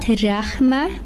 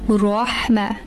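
First: The R sound is light and thin. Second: The R sound is heavy and full. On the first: The speaker calls it wrong. "So not Rahma" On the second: The speaker calls it right. "it will be read full"

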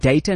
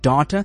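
First: Its vowels rhyme with the word innovator. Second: Its vowels do not rhyme with innovator.

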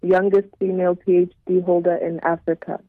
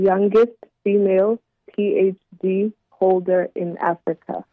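First: The phrase is said at a normal pace. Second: The phrase is said at a slower pace.

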